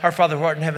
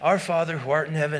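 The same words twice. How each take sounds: First: The prayer is rattled off very quickly, words rushing. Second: The prayer is recited at an ordinary, unhurried pace. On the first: The child is rushing to get the penance over with. "you're like a rolling stone going down the side" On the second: The child is still praying carefully. "the first two times is at normal speed"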